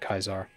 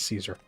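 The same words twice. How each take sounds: First: It begins with a hard K sound. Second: It begins with a soft S sound. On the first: This is the old Latin pronunciation. "the Latin way of pronouncing Caesar would have been Caesar, or it would have been a hard C" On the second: This is the usual modern pronunciation. "we pronounce it as Caesar"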